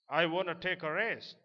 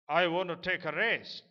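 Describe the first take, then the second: The two takes are said the same way.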